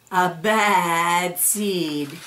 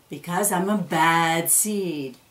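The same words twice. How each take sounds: First: Drawn-out, ominous refrain; slow ominous. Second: Said in the usual way. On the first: A narrator's reading. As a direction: stretch each word out darkly. Refrain of the bad seed.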